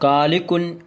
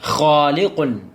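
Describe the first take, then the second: First: It begins with a plain hard k sound. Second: It begins with a rough sound from the throat. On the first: The speaker calls it wrong. "എന്ന് പറയാൻ പറ്റില്ല" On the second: The speaker calls it right. "ഖ"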